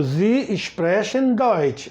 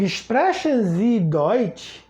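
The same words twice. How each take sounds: First: "Sie sprechen Deutsch" slowly as a statement, falling on Deutsch; statement tune. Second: "sprechen Sie Deutsch" slowly, rising on Deutsch; question tune. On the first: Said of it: "Primeiro eu afirmo". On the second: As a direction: ask "sprechen Sie Deutsch" with lifted ending. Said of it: "Como é que eu pergunto?". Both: Shown as a demonstration.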